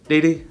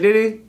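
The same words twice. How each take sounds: First: The word sounds harsh and dismissive. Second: The word sounds friendly and inviting. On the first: Go away. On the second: Come along, go to the restaurant.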